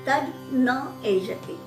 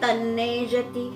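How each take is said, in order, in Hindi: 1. शब्द अलग-अलग शब्दों की तरह बोले जाते हैं। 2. शब्द एक ही शब्द की तरह जुड़कर बोले जाते हैं। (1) "मैंने संधि विग्रह करके बोला है" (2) "वहाँ लिखा है तन्नेजति"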